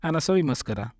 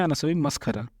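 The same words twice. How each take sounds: First: मस्करा with an unaspirated क; plain k sound in मस्करा; maskara with k. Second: मस्खरा with an aspirated ख; maskhara with kh. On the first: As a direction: say मस्करा as mas-ka-ra. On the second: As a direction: say मस्खरा as mas-kha-ra. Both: Shown as a demonstration. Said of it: "या फिर ऐसे बोल सकते हैं".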